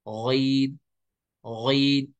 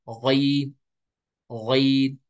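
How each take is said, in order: No difference in how they are said.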